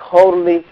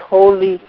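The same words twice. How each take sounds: The two takes are said the same way.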